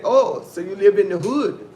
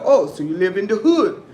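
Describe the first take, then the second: First: Imitating the waiter's startled question; surprised waiter. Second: Surprised waiter. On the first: Retelling the waiter's shocked question, loud mock surprise. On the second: Retold or imitated. Showing how the waiter said it, louder mock surprise. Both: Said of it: "That's how he said it".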